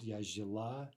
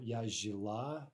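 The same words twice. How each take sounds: First: Said in the usual way. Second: Slow Я жила with stress on the ending ла; slow careful teacher model of жила; stress shift demo. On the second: Shown as a demonstration. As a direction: stretch жила, lean on the final ла. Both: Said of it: "watch the stress".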